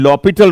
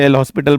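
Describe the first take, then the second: First: It is said as 'lopital', with no s. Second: It is said as 'el hospital', with an s. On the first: The speaker calls it right. "लॉपिटल rule बोला जाता है" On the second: The speaker calls it wrong. "काफी लोग इसे एल हॉस्पिटल बोलते हैं, but it's a French word"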